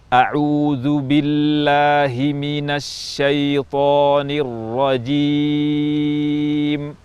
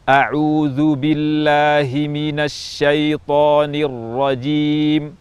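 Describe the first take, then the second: First: It is recited at a slow pace. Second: It is recited at a medium pace.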